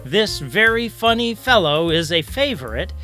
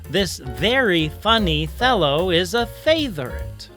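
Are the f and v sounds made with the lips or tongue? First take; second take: lips; tongue. First: F and v are made with the lips. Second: F and v are replaced by th sounds. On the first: "If I wanted my puppet to say" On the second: "We simply substitute the hard and soft T H sounds in their place"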